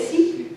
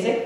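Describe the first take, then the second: First: "Sikh" with a long ee, like seek. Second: "Sikh" with a short i, like sick. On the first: Preacher showing how some people say it, "Sikh" as seek. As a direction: say "Sikh" to rhyme with week. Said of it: "Some people say Sikh". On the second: Preacher giving the pronunciation he was told is correct, "Sikh" as sick. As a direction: say "Sikh" to rhyme with pick. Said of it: "it sounds funny to say Sikh". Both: Shown as a demonstration.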